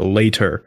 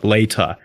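First: It is said in an American accent with R. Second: It is said in a British accent without R.

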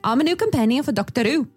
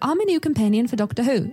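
First: It is said in a Liverpool Scouse accent. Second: It is said in a standard English accent. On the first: This is what was actually heard. "Scouse accent, a Liverpudlian accent" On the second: This is what was expected. "expect something like"

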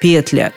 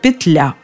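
First: The stress is on the first syllable. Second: The stress is on the second syllable. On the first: This was the standard form decades ago. "Несколько десятилетий назад норма была другой" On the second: This is the current standard form. "как же все-таки правильно, отвечаю"

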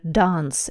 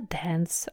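First: It has a British long 'ah' vowel. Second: It has an American short 'a' vowel.

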